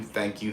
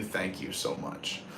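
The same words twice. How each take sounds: First: Said in the usual way. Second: Slow, hushed whisper of thanks; sincere whisper to the viewers. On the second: Real, not acted. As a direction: breathe the thanks out softly and slowly. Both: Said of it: "repeated thanks, fading".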